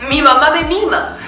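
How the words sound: It is said in an upbeat, lifted, cheerful way. The speaker feels happy and energized. "con todo mi cuerpo hacia arriba"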